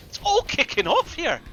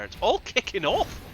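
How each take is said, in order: First: Much higher and louder, caster losing it; all-out hype over a sudden team fight; excited shout. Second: Said in the usual way. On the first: Real, not acted. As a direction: yell it as the fight erupts. Caster repeats as fight begins.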